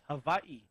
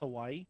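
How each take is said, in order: First: The middle consonant is a V sound. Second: The middle consonant is a W sound. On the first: The speaker calls it right. "Hawaii with a V" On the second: The speaker calls it wrong. "in Hawaiian it's not actually pronounced Hawaii"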